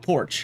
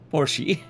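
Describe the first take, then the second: First: The name is said plainly, like 'porch'. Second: The name is said the fancy, full way. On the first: It is a cheap, ordinary way to say it. "How about porch? ... And no S in it" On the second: It sounds like something only rich people say. "I don't have enough money to pronounce it Porsche"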